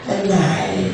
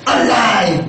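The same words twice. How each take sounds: First: It is said flatly with little energy. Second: It is said loudly with lots of energy. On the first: The speaker sounds lifeless, as if dead. The speaker calls it wrong. "ganito yung mga mukha" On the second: The speaker is full of enthusiasm. The speaker calls it right. "gigil na gigil ako. Ganito yun"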